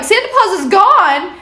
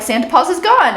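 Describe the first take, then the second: First: High, louder rising "gone?"; shocked disbelief. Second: Said in the usual way. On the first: Retold or imitated. Eddie hearing Santa Paws vanished, shocked disbelief. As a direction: react like the news can't be true.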